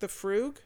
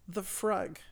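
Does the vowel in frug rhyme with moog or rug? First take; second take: moog; rug. First: Frug is said to rhyme with moog. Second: Frug is said to rhyme with rug. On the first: The speaker calls it right. "rather than moog" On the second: The speaker calls it wrong. "which is just how I pronounced it"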